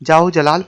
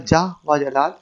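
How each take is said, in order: First: The 'o' is joined onto the first word. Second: The 'o' is said as a separate word. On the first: The speaker calls it right. "पहले लफ्ज़ के साथ मिलाकर पढ़ा जाता है" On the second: The speaker calls it wrong. "अलहदा नहीं पढ़ना चाहिए"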